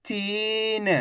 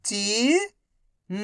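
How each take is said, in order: First: Whole word in one go, vowels held; syllables joined. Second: Each syllable slowly held, first one rising. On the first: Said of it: "तो मिलके बन जाएगा". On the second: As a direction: break the word into long, separate syllables. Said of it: "एक अक्षर का उच्चारण करके". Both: Shown as a demonstration.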